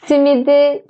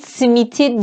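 First: The consonant before the final vowel is d. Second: The consonant before the final vowel is t. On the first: The speaker calls it right. "Simidi çok seviyorum deriz" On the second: The speaker calls it wrong. "simit simiti demeyiz"

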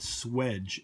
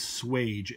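First: The word rhymes with edge. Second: The word rhymes with page. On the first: "I was taught swedge, S-W-E-D-G-E" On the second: "the other word is swage, S-W-A-G-E, no D"

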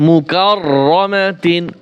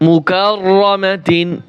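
The two takes are said the same way.

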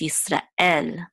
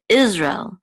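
First: The stress is on the last syllable. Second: The stress is on the first syllable. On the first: "the last syllable of Yisrael is what is accented" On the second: "in English, we accent the first syllable, we say Israel"

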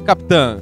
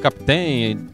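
First: The name ends in a nasal 'ão' sound. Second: The name ends in an 'ém' sound. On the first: The locals say it this way. "mas pra nós é Capitão" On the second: Some people elsewhere say it this way. "depende onde você é, pronuncia assim"

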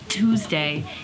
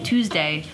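First: The consonants are hit hard, clipped and percussive. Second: The word is said in a normal, relaxed way. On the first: "really hit those notes" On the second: "when later they just say Tuesday"

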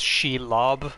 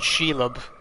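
First: The final O is a full, strong vowel. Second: The final O is a weak, reduced vowel. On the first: The speaker calls it right. "she gets the whole hard O" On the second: The speaker calls it wrong. "I think I've been saying Shelob"

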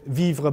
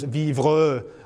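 First: The final e is silent. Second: The final e is pronounced as a vowel. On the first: This is how the word is normally spoken. "the silent E" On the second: This is how the word is voiced in song. "the voicing that I discovered in French song of the silent E"

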